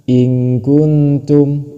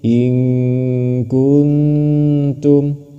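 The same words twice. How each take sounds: First: The n is pronounced clearly without a nasal hum. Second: The n is hidden with a nasal hum. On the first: The speaker calls it wrong. "Bukan malah dibaca in kuntum, itu salah" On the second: The speaker calls it right. "Tapi in kuntum, seperti itu"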